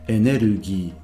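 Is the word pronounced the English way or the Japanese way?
Japanese. It is said with Japanese sounds and syllables. "under normal circumstances is energy"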